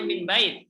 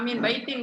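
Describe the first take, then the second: First: The phrase ends with a bare consonant sound. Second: The phrase ends with a full -in ending. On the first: "Kita bilangnya min bait, itu boleh" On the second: "kan harusnya"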